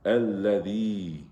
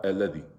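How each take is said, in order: First: Alladhi with the lam held and a long drawn-out final ee; correct long vowel. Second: Alladhi said quickly, lam and ending cut short; wrong short vowel. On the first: Teacher models Quran recitation for students, alladhi drawn out long. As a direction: stretch the ending of alladhi, slowly. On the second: Teacher shows students the mistake, alladhi with short sounds. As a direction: say alladhi without holding any sound. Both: Shown as a demonstration. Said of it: "It's not alladhi".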